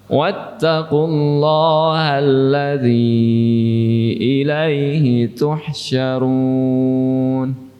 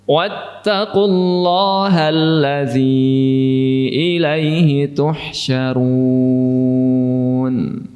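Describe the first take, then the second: No difference in how they are said.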